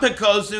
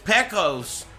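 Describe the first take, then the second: First: The name ends with an added su syllable. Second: The name ends with a bare s sound. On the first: This is how the name was said in Japan. The speaker calls it wrong. "But it's not Pekosu, That's just how they say it" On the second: This is the actual name. The speaker calls it right. "it's Pekos"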